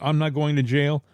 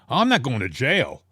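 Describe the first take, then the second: First: It is said in a nervous, anxious way. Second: It is said in a defensive, protesting way. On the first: "it wasn't like a nervous" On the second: "It wasn't a defensive"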